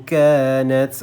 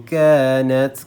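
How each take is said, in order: No difference in how they are said.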